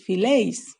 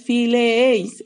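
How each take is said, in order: First: Fileis said slowly with one diphthong ei; right form fileis, slowly and clearly; contracted form. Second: Fileéis spelled out slowly, e and ei kept apart; wrong form fileéis, slowly drawn out; fileéis said slowly to show the mistake; uncontracted form. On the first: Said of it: "es fileis". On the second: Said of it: "no es fileéis". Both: Shown as a demonstration.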